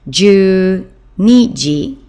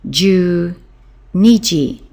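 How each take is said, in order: Both takes have the same delivery.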